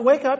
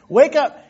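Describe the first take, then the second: First: It is said softly and quietly. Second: It is said loudly and insistently.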